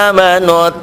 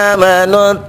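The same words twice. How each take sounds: No difference in how they are said.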